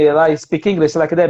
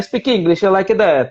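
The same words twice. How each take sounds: First: It is spoken with a Spanish accent. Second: It is spoken with an Italian accent. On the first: "o Spanish fala" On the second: "O italiano é mamma mia"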